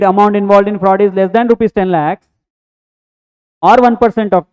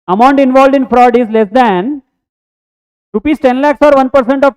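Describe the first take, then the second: First: There is a pause after percent of. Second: There is a pause after less than. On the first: The speaker calls it wrong. "that will confuse" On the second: The speaker calls it right. "third one is right. I need to give pause after less than"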